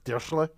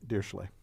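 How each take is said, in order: First: It is said in a German-sounding way. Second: It is said in a plain anglicized way. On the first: "That sounded German" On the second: "Which is the computer science pronunciation"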